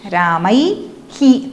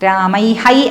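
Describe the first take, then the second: First: The word ends with an echo syllable 'hi'. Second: The word ends with an echo syllable 'hai'. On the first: The speaker calls it right. "രാമൈ ഹി തന്നെയാണ്" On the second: The speaker calls it wrong. "രാമൈ ഹൈ അല്ല"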